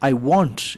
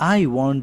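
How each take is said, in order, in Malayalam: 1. ഊന്നൽ വരുന്നത് want എന്ന വാക്കിലാണ്. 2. ഊന്നൽ വരുന്നത് I എന്ന വാക്കിലാണ്. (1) "ഇവിടെയാണ് നമ്മൾ ഊന്നൽ കൊടുക്കണമെങ്കിൽ" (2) "ഐ എന്ന് പറയുന്ന വാക്കിന് ഊന്നൽ കൊടുക്കുവാണെങ്കിൽ"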